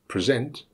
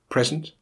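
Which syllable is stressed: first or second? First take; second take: second; first. First: The stress is on the second syllable. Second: The stress is on the first syllable. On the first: It is used as a verb. "the verb has the stress on the second" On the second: It is used as a noun. "the noun has the stress on the first syllable"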